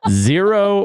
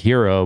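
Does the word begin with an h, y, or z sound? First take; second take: z; h. First: The word begins with a z sound. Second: The word begins with an h sound. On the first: The speaker calls it right. "apparently it's either the zero" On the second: The speaker calls it wrong. "I always pronounced it the hero"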